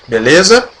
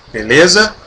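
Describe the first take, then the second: No difference in how they are said.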